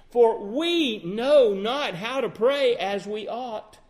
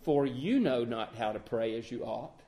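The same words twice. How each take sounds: First: "we" in "for we know not how to pray as we ought" said slowly and firmly; slow, weighty reading that lands on "we"; correct quote. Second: "you" stressed as the wrong word, low and quiet; wrong quote. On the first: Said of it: "the Apostle Paul included himself". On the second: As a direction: lean on "you" in "For you know not how to pray as you ought" as the misquote. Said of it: "Paul didn't say". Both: Shown as a demonstration.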